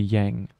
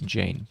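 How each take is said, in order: First: The name begins with a Y sound. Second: The name begins with a J sound. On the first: The name is treated as German. The speaker calls it wrong. "If it were German, then it would be Yang" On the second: The speaker calls it right.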